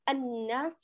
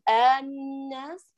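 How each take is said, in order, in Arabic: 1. الحركة الأولى تُختلس قصيرة جدًا. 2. الحركة الأولى تُمَدّ طويلة. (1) "ولا أقول الناس وأختلسها وأنقص الزمن" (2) "فلا أقول الناس آل وأطيلها"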